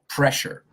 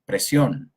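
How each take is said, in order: First: The middle consonant is a hushing sh sound. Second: The middle consonant is a plain s sound. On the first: The speaker calls it right. "Shh, shh, shh, pressure" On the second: The speaker calls it wrong. "a lot of people say presión"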